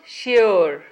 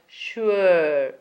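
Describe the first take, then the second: First: The vowel is not the U sound. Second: The vowel is the U sound. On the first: The speaker calls it wrong. "Not sure" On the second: The speaker calls it right. "but sure"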